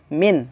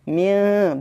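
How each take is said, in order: First: The n is pronounced clearly and fully. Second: The n is hidden and nasalized, not fully pronounced. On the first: The speaker calls it wrong. "bukan dibaca min" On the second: The speaker calls it right. "Minnya harus dibaca min"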